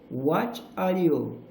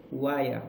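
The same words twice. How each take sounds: First: "What are you" slowly, each word separate; full form. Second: "What are you" squeezed into "whaya", lower; reduction. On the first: Teacher showing the unreduced form first, "What are you" slow and separate. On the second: Teacher showing learners reductions, "What are you" as "whaya". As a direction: run the three words together as "wha-ya". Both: Shown as a demonstration. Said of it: "Ó, reductions".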